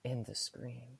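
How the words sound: It is said in a put-on sexy voice.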